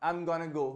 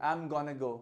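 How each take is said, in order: Both takes have the same delivery.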